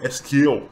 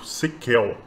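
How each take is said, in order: First: It is spelled out as three separate letters. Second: It is said as one word, like sequel. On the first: This is the actual pronunciation. "a pronúncia dele na verdade é" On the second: This is the older, popular name. "Também é bem famoso S Q L, que é como ele era chamado antes"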